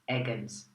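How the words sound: The surname is pronounced with English sounds. "if you pronounce it in English"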